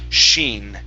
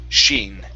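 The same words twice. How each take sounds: The two takes are said the same way.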